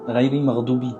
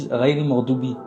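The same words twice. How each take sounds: No difference in how they are said.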